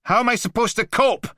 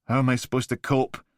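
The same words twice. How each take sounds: First: Very high, loud anguished cry; tearful shout. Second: Deflated. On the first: Blakey screaming at the Mantis near tears, anguished. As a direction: cry it out in despair. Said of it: "Tears sparked in his eyes". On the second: Blakey asking again after his shoulders slump, defeated. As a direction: let the fight drain out. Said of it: "Blakey's shoulders slumped". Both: Acted.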